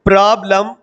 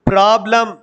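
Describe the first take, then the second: No difference in how they are said.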